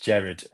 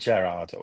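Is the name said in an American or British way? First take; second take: British; American. First: The name is said the British way. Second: The name is said the American way.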